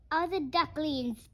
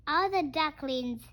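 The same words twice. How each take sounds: The two takes are said the same way.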